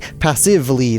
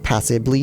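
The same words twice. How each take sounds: First: The middle consonant is a V sound. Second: The middle consonant is a B sound. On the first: The speaker calls it right. "It's a V" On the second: The speaker calls it wrong. "not a B"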